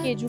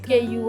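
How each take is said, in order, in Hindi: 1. बीच वाला व्यंजन J की आवाज़ है। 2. बीच वाला व्यंजन Y की आवाज़ है। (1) "जब हम लेने आए थे तब हम इसे केजू कहते थे" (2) "यहाँ पे जे को य करके प्रोनाउंस करते हैं"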